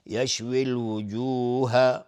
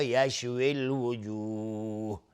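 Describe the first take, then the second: First: الوجوه ending on a short voiced u to carry on; joined form. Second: الوجوه stopped on a silent final ha, vowel lengthened; pause form. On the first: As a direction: read الوجوه with its vowel, flowing on. (وصل الوجوه با حرکت آخر) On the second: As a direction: stop on الوجوه with a long madd. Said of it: "اگر توقف کردیم اینجا". (وقف روی الوجوه با مد عارض) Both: Shown as a demonstration.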